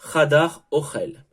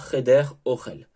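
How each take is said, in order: First: The first word is said with 'a' vowels. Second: The first word is said with 'e' vowels. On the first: The speaker calls it right. "on va changer la prononciation de, du mot cheder et on dira chadar ochel" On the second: The speaker calls it wrong. "et non pas cheder ochel"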